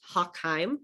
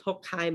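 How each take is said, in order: First: Hochheim said the British way, as Hock-heim; anglicised Hochheim, first syllable like "hock"; British pronunciation. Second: Said in the usual way. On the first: Shown as a demonstration. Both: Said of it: "they would pronounce Hochheim as".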